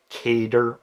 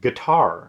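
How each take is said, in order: First: It sounds like the word cater. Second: It sounds like the word guitar. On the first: The speaker calls it wrong. "people are flat out wrong when they say cater" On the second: The speaker calls it right. "It's guitar"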